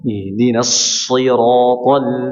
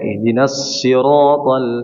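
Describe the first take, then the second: First: The s sound is clear, sharp and thick. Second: The s sound is thin and not clear. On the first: The speaker calls it right. "harus seperti itu dijelaskan" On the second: The speaker calls it wrong. "jangan sampai"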